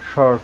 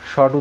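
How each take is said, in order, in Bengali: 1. American উচ্চারণ, 'r' উচ্চারিত। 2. British উচ্চারণ, 'r' নীরব। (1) "আমেরিকানরা এই থর, নর্মাল, থর্ন, শর্ট এগুলো ওয়ার উচ্চারণ করে" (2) "ব্রিটিশরাই এগুলো যেমন ফ, নর্মাল, থন, শর্ট উচ্চারণ করে"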